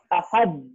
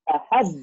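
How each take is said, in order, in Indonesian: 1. Konsonan terakhir ditahan tanpa dilepas. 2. Konsonan terakhir dilepas dengan pantulan. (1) "ini bukan ahad, kemudian kita tahan" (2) "Tapi jadi ahad"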